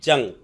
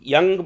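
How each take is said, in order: First: The name begins with a J sound. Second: The name begins with a Y sound.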